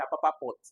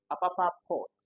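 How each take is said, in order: First: "pot" with a short, quick O. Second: "pot" with a long O as in port, higher and louder. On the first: Teacher shows what you don't say, short O in "pot". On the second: Teacher corrects to how you call it, long O in "pot". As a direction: hold the vowel open in "pot". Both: Shown as a demonstration. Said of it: "you don't say Apapa pot".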